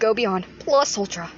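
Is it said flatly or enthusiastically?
flatly. It is said flatly, without enthusiasm.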